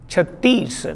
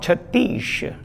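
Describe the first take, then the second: First: The word ends with an s sound. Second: The word ends with an sh sound. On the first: The speaker calls it right. "the other was chattis" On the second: The speaker calls it wrong. "not chattish"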